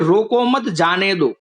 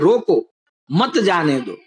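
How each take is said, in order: First: The pause comes after the word mat. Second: The pause comes after the word roko. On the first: Don't stop me, let me go. "यानी कि कोई कह रहा है कि मुझे मत रोको, मुझे जाने दो" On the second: Stop me, don't let me go. "यानी कि मुझे रोक लो, जाने मत दो"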